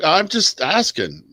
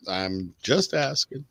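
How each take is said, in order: First: Defensive. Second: Muttered repeat. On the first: Defending his question. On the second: Repeats it under his breath. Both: Real, not acted.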